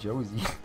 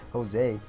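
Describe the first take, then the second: First: The name is said like English Josie. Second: The name is said the Spanish way. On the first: The speaker calls it wrong. "Why did I read that as Josie?" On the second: The speaker calls it right. "I'm Spanish. That's Jose"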